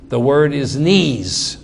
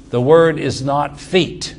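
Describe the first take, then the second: First: "knees" drawn out as the correct word, slowly; slow down and land on "knees"; stress on knees. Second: "feet" stressed as the word being rejected. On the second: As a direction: land on "feet" to correct it. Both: Shown as a demonstration.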